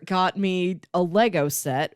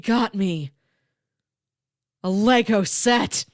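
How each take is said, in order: First: The phrase is said plainly, without extra energy. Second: The phrase is said with extra energy and emphasis.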